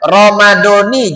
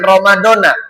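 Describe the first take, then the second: First: The word ends with an 'ee' vowel. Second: The word ends with an 'ah' vowel. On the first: The fast is for Ramadan of this year. The speaker calls it right. "Ingat, Ramadoni" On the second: The fast seems to cover the whole year. The speaker calls it wrong. "jangan Ramadona"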